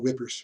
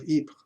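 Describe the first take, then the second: First: The name is said like English 'whippers'. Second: The name is said with a French pronunciation. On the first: "a lot of times the British just call it whippers" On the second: "I'm trying to use a French pronunciation"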